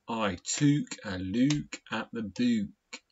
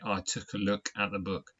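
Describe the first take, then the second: First: It is said in a non-southern regional English accent. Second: It is said in a southern English accent. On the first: "not I took a look at the book. Now, some people do speak like that" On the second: "down here in the south of England, we say"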